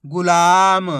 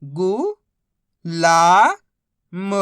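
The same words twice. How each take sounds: First: गुलाम joined, with a loud stretched ला; blended word. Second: गु, ला, म apart, ला loud and long; syllable by syllable. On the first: Teacher modelling reading, गुलाम said whole. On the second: Teacher modelling reading, गु, ला, म sounded out separately. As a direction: sound out गु... ला... म with pauses. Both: Shown as a demonstration. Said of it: "बस इसी तरीके से".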